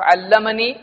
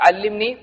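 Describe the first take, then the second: First: The doubled L is followed by an 'a' vowel. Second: The doubled L is followed by an 'i' vowel. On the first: It reports that someone taught the speaker. "اس نے مجھ کو سکھایا" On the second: It asks someone to teach the speaker. "تو مجھ کو سکھا"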